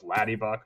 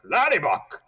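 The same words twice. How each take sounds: First: Said in the usual way. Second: "Laddie Buck" said higher and louder like dad; dad's voice. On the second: Retold or imitated. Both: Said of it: "he'd call us Laddie Buck".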